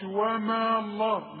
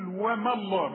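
First: The vowel in wama is lengthened. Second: The vowel in wama is kept short. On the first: The speaker calls it wrong. "ما اقولش وما الله" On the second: The speaker calls it right. "بلغي المد ده، اقول وما الله"

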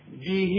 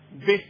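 First: The final vowel is lengthened to two counts. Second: The final vowel is short, with no lengthening. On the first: "اذا وصلت مدهالي حركتين" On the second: "اذا وقف بدون مد"

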